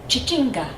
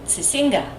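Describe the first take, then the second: First: The word begins with a sh sound. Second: The word begins with an s sound. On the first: The speaker calls it right. "it's Chichinga, like Chicago" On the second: The speaker calls it wrong. "we kept saying Sisinga"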